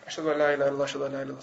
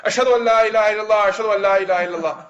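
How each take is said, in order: First: Soft, low mumbled recitation; quiet adhan. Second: Fuller, projected recitation; louder adhan. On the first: Boy told to give adhan, saying it quietly. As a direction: recite it timidly small, barely projecting. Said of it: "he would say it quietly". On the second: Boy obeying the order to be louder, projected call. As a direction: proclaim the testimony out loud. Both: Retold or imitated.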